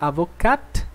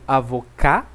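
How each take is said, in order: First: The word ends with an audible T sound. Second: The word ends without a T sound. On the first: It refers to a female lawyer. "com som de T" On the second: It refers to a male lawyer. "sem som de T"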